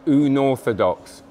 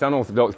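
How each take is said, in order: First: Unorthodox with the Uno sound up front; Unorthodox, opening on a drawn-out Uno; said as Uno-rthodox. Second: Said in the usual way. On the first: Shown as a demonstration. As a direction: stretch it out slowly as Uno-rthodox. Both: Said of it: "but with Uno".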